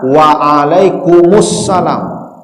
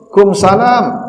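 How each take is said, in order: First: The reply is said in full, starting with wa. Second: The reply is clipped, dropping the opening syllables. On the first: The speaker calls it right. "Pakai wa di awal" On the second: The speaker calls it wrong. "Enggak ada artinya itu"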